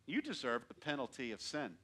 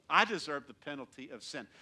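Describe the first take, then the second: First: You hit first and hardest, the rest falling; accusing You set against I; stress on You. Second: I hit first and hardest, the rest falling; confessing I set against You; stress on I. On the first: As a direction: point at them with You. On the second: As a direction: turn it on yourself with I. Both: Shown as a demonstration.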